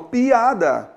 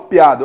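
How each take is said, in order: First: The two vowels are said as separate syllables. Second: The two vowels glide together into one syllable. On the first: The speaker calls it right. "eu falo piada" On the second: The speaker calls it wrong. "Eu não falo piada"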